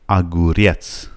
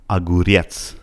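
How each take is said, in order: No difference in how they are said.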